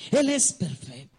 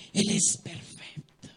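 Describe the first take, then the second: First: Said in the usual way. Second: Slow, breathy near-whisper; slow whispered reverence; hushed awe. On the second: Acted. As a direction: let it fall to a reverent hush. Repeats line, first hushed.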